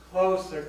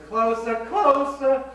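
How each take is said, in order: First: Swooning, louder and higher; rising passion. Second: Much higher, louder, slow and drawn out; swooning climax. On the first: Old lady reliving the slow dance, swooning louder. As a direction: breathe it out as the dance heats up. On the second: Old lady reliving the dance, swooning much higher and louder. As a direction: melt into the memory, milking each closer. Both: Acted.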